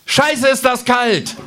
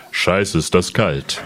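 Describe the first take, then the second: First: High, slow fresh kangaroo voice; andere Känguru-Stimme. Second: Low, slow grumbling kangaroo voice; tiefe Känguru-Stimme. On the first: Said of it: "das Känguru in einer ganz anderen Stimme zu sprechen". (hohe, langsame Känguru-Stimme) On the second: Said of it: "mach den ersten Satz noch mal". (tiefe, langsame Känguru-Stimme) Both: Acted.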